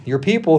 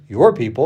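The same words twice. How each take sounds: First: Said in the usual way. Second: "your" stressed over "people"; pointed emphasis on the word "your". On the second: Shown as a demonstration. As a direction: lean on "your", handing the blame over. Repeats phrase laughing, disowning them.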